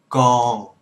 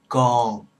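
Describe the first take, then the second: The two takes are said the same way.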